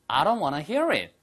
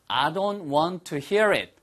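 First: It is said fast, with wanna. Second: It is said slowly and fully.

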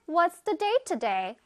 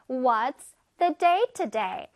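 First: It is said a bit faster. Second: It is said at a normal speed.

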